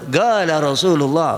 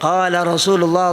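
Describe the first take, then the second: First: The first word begins with a hard g sound. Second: The first word begins with a standard q sound.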